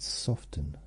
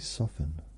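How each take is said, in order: First: The T in the middle is pronounced. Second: The T in the middle is silent. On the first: "Today I've decided to use the word T in that" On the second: "I usually just say soften"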